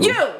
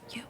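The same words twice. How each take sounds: First: It is said loudly and confidently. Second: It is said softly and quietly.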